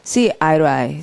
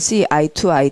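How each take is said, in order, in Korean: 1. 단어들이 부드럽게 이어져 하나의 흐름으로 말해요. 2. 각 단어를 따로, 뚝뚝 끊어서 말해요. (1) "이렇게 이제 붙여서 해주시고" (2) "뭐 이렇게 하지, 거칠게 하지 마시고"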